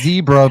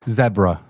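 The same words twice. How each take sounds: First: Zebra is said with a common American pronunciation. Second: Zebra is said with a British pronunciation. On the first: This is the usual local way. "You can call it zebra because that's what everybody says" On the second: This is how it is said overseas. "But go across the pond"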